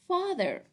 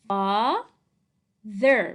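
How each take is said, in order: First: Said in the usual way. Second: Father stretched loudly into two syllables, fa... ther; sounding out. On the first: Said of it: "Okay, so it's". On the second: Shown as a demonstration. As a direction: sound out Father slowly, part by part. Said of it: "Spell and read".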